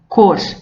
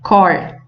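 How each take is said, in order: First: The vowel is pronounced closed. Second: The vowel is pronounced open. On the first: It means the colour of something. "a pronúncia é mais fechada" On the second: It is part of the phrase meaning by heart. "nós temos uma pronúncia mais aberta"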